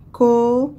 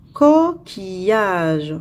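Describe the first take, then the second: First: "coquillage" split co, qui, llage with long pauses; syllable by syllable. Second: Said in the usual way. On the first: Shown as a demonstration. Teacher counting syllables for pupils, "coquillage" in three separated syllables. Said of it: "trois syllabes". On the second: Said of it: "puis écris le nombre de syllabes".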